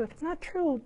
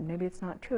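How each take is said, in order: First: Said in the usual way. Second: A hushed, worried rising question; doubting murmur. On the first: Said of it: "If it's not true, then dump it". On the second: Retold or imitated. Preacher voicing the doubt Satan plants, hushed and rising. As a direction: voice the doubt Satan whispers in, softly. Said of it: "Satan brings that lie into our head like".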